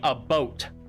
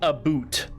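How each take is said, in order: First: The vowel sounds like the one in 'boat'. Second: The vowel sounds like the one in 'boot'. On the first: The speaker calls it right. "We say a boat" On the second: The speaker calls it wrong. "Nobody says a boot. It's incorrect"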